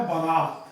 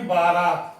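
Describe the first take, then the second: First: Short first vowel in बारात: ba-raat; correct pronunciation. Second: Long first vowel in बारात: baa-raat; wrong pronunciation. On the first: Teacher giving the correct word, short first a in बारात. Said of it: "जो इसका सही शब्द है". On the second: Teacher rejecting the popular form, long first aa in बारात. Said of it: "ना कि बारात". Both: Shown as a demonstration.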